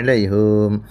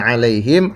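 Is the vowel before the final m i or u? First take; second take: u; i. First: The last syllable has a u vowel. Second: The last syllable has an i vowel.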